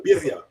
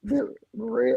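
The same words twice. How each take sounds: First: Berea said with a rolled trilled R, bi-RRI-a. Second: Berea said as buh-REE-uh, like the name Berea; mispronounced birria. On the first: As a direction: roll the R in Berea like Spanish birria. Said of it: "You gotta roll the R". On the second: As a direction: say Berea like J J Berea, no rolled R. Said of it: "I said it wrong?". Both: Shown as a demonstration.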